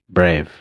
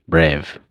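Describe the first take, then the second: Both takes have the same delivery.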